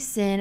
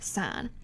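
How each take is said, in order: First: The word rhymes with 'win', short vowel. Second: The word rhymes with 'line', long vowel. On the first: The speaker calls it wrong. "don't say sin" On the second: The speaker calls it right. "it's still pronounced sine"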